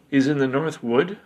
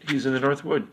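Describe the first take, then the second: First: "He's in the North Wood" with a rising question at the end. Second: "He's in the North Wood" as a statement, falling at the end; "He's in the North Wood" stated firmly with a closing fall; confirming. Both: A narrator's reading.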